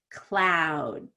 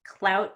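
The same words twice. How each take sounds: First: CLOUD stretched and falling in pitch; bigger long vowel. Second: CLOUT with a small, quick OU; smaller short vowel. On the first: Teacher repeats the contrast, CLOUD long and falling. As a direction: draw out the OU in CLOUD. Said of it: "that's pretty different". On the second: Teacher repeats the contrast, CLOUT said short. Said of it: "I don't open my mouth too much". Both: Shown as a demonstration.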